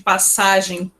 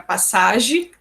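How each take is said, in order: First: The final vowel is nasal. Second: The final vowel is oral, not nasal.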